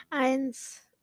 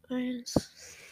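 First: Said in the usual way. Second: Whispered count; whispering. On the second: Real, not acted. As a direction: breathe the number without voice. Counting down before a bite.

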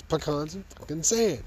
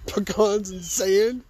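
First: "fucking" stressed with falling "sand"; emphatic. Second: Higher, slow rising "Pecans and sand?"; incredulous question. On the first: Speaker to audience, emphatic falling verdict. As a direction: punch it as a verdict. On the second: Speaker to audience, incredulous and slow. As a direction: drag it out in disbelief. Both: Real, not acted.

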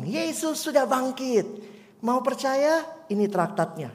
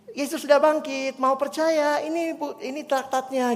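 First: Put-on child evangelist. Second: Put-on higher, eager girl's voice offering tracts; cheerful child. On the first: Pastor imitates the girl offering a tract, lightly childlike. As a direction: play a shy girl handing out tracts. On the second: Pastor voices the eager girl offering tracts to strangers. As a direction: sound like a happy child on a mission. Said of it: "gitu ya".

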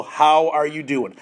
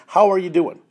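First: Slow, gentle how are you; gentle check-in. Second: Said in the usual way. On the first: Shown as a demonstration. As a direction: ask it slowly, like you really want to know. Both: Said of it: "just say".

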